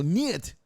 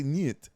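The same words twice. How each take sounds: First: "niet" louder and higher, Russian nyet. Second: "niet" said as Russian nyet. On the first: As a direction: punch "niet" with a firm fall. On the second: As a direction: clip "niet" short and falling. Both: Shown as a demonstration. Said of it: "Russian for no".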